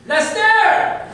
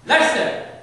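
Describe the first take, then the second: First: Very high, loud drawn-out holler; second call, louder. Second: Lester hit high and loud on LES; short shout of Lester, punched on the first syllable; stress on first syllable. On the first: Strict dad calling his son a second time, high full-voiced yell. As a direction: belt the name out from far away, imitating dad. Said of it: "That was call number two". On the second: Dad whose son is now in trouble, sharp LES-ter shout. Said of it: "he put the emphasis on the first syllable of my name". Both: Retold or imitated.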